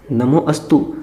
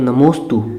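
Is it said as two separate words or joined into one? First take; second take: separate; joined. First: It is said as two separate words. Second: It is joined into one word, the vowel dropped. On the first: The speaker calls it wrong. "तो वो क्या बनता है नमो अस्तु" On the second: The speaker calls it right. "परंतु उसका उच्चारण नहीं करते हैं, वो लोप रहता है"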